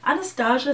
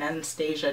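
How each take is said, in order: First: The name is said in a fancy-sounding way. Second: The name is said in a plain, ordinary way. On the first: The speaker is trying to sound sophisticated. "sounds like I'm trying to be fancy" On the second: The speaker is mispronouncing the name. "just sounds like I'm saying it wrong"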